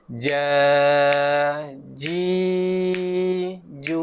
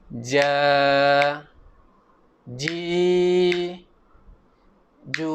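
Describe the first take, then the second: First: The syllables flow without breaks between them. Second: The syllables are cut apart with breaks.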